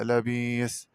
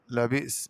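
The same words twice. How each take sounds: First: لبيس with a long ee and no glottal stop; smooth long vowel in لبيس; hamza as long ya. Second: Said in the usual way. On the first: Shown as a demonstration. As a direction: say لبيس as "la-biis". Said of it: "بإبدال الهمزة ياء مادية". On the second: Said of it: "قرأ بإبدال الهمزة ياء مادية".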